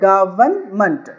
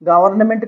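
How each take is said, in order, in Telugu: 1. చివరి అక్షరం 'mant' గా తగ్గిపోతుంది. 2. చివరి అక్షరంలో పూర్తి 'ment' అచ్చు ఉంటుంది. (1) "మెంట్ అని చదువుకుంటే మంట్" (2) "గవర్నమెంట్ కాదండి"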